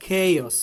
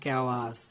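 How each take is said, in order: First: Loud, emphatic "chaos" as KAY-os; forceful model "chaos", falling at the end; correct pronunciation. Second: "chaos" as KYA-was; wrong pronunciation. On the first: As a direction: hit the first syllable of "chaos" hard: KEI-os. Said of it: "We should say". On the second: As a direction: say "chaos" unemphatically with a w inside. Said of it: "not chaos". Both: Shown as a demonstration.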